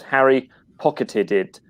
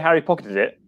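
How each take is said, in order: First: The phrase is said slowly and carefully. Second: The phrase is said quickly and smoothly. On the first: "when you say it slowly" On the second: "if you just say Harry pocketed it, it's fine"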